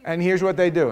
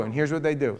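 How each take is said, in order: First: "they" pushed louder, with a falling end; stress on they. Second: Said in the usual way. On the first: Shown as a demonstration. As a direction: lean hard on "they" in "here's what they do".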